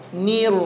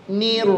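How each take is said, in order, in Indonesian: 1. Bunyi r mengalir lancar. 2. Bunyi r mengalir lancar.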